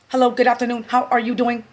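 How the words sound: It is said in a flat, robotic monotone. The applicant is repeating it as a robot. "Just robot talk to me"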